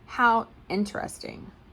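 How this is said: It sounds bored and dismissive. The speaker is not interested at all.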